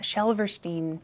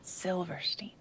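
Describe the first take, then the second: First: Shelverstein, first name run into the surname; wrong pronunciation. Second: Softer Silverstein, starting SIL and ending STEEN; corrected pronunciation. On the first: Correcting their own slip, the mangled name Shelverstein. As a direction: say Shelverstein slowly, Shel replacing Sil. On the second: Fixing their slip to themselves, careful Silverstein. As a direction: say Silverstein quietly with a clear Sil. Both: Shown as a demonstration. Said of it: "Not Shelverstein".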